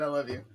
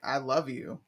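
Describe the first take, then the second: First: It is said casually, like to a friend. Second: It is said tenderly, like to a partner. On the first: The love is friendly, not romantic. "platonic. I love you. You're my friend. Like, dude" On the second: The love is deep and romantic. "It's not like I love you"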